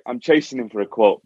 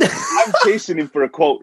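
First: Said in the usual way. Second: Half-shouted through a laugh, higher; laughing outburst. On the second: Real, not acted. Host laughing while telling the builder story, half-shouting. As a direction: blurt it out laughing in disbelief.

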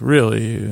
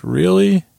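First: Deadpan echo. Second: High-pitched, rising disbelief; incredulous question. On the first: Paralegal throws Walt's question back at him, deadpan. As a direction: hand his question back without any lift. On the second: Walt reacts to paralegal's price hike, incredulous. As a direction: imitate a man balking at the price, pitched way up. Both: Retold or imitated.

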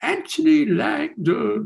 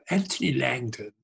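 First: High, slow, drawn-out name; mock grand self-introduction. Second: Said in the usual way. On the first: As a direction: announce yourself like a pop star, stretching the name. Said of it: "Anthony goes". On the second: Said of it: "and he goes".

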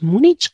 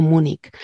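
First: "Múnich" ending in a Spanish ch; first variant, "Múnich" with ch as in chico. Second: "Múnich" ending in a hard k; second variant, "Múnich" as if spelt Múnik. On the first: Linguist listing both pronunciations, "Múnich" with final ch. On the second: Linguist listing both pronunciations, "Múnich" with final k. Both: Shown as a demonstration. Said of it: "Las dos pronunciaciones".

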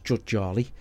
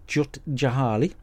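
First: "Jut Jali?" as a tentative alternative; second pronunciation guess. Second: "Jahali" said with the middle ha sounded; "Jut Jahali" in an unsure first try; first pronunciation guess. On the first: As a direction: say it "Jut Jali", Jali cut to two syllables. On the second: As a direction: say it "Jut Jahali", three full syllables in Jahali. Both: Shown as a demonstration. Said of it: "Or is it pronounced".

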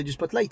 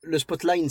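First: Spotlight with a clear final "t"; correct pronunciation. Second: Spotlight said as "spot-line"; imitated mispronunciation. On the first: Shown as a demonstration. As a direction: say Spotlight as "spot-laït". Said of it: "c'est Spotlight". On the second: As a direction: mimic his slip, ending Spotlight on an N. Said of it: "tu dis Spotlight depuis tout à l'heure".

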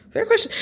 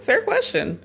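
First: High mock-indignant squeak on "Fair question."; squeaky fair question. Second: Said in the usual way. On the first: Recapping a reality show, she squeaks a high mock concession.

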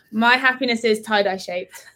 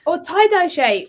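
First: Said through a laugh. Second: High, loud and slow, drawn out; excited. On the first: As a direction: deliver it while giggling. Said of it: "let me say it again". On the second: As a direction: stretch it out with big excitement. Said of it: "So say it again". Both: Shown as a demonstration.

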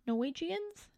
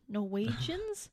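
First: "Norwegians" stretched to four syllables, nor-WEE-jee-uns; higher, questioning "Norwegians" with an extra ee before the ending; alternative pronunciation. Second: "Norwegians" as three syllables, nor-WEE-juns; trying a pronunciation. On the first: Host unsure of the name for the people, testing "Norwegians" with an extra syllable. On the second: Host unsure of the name for the people, testing "Norwegians" in three syllables. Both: Shown as a demonstration. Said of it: "What do you call Norwegian people?".

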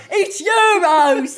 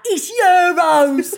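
First: Slow, loud, drawn-out correction; crowd correcting again. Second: Slow, loud, laughing correction; crowd correcting. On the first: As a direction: drag out the correction loudly. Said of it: "they kept going". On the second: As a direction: call it out slowly with a laugh. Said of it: "all of them was like". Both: Retold or imitated.

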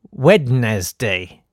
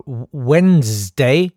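First: Wednesday as 'wed-nez-day', sounding the D; slow, falling, every syllable of Wednesday spelt out; three-syllable Wednesday. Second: Wednesday as 'wenz-day', drawn out and rising; slow questioning 'WENZ-day' for Wednesday; two-syllable Wednesday. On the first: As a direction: say Wednesday as written, wed-nes-day. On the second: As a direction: stretch Wednesday slowly in two beats, D silent. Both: Shown as a demonstration. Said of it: "you must pronounce Wednesday".

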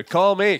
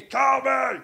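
First: Sung, higher-pitched quoting of a hook; sung, song quote. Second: Wild, high shouted puppet voice. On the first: Recalling Call Me from the Muppets, lightly chanted hook. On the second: Doing the Muppets' duet of Call Me, wild high shout. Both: Retold or imitated. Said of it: "they did Call Me with Animal".

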